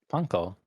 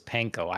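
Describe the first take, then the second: First: It is said closer to the Japanese way. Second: It is said the common English way. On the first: This is the more authentic pronunciation. "but it would be" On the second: This is how most people say it. "Everyone says panko"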